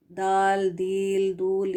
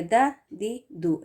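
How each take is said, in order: First: दाल, दील, दूल said with the full letter name stretched, the wrong way; wrong drawn-out d. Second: द, दी, दु said short and thin with no air; short light d. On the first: Teacher shows students how not to voice the d. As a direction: drag the whole letter name to show the error. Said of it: "इस तरह से तो नहीं पढ़ा जाता ना". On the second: Teacher shows students the correct light d. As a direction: clip each द short and keep it light. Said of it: "इस तरह से". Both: Shown as a demonstration.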